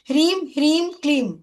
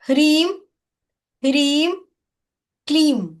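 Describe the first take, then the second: First: The words are run together without pauses. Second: The words are said separately with pauses between. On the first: "इकट्ठा हमें बोलना है" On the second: "ये तीन words में ये बीजाक्षर है"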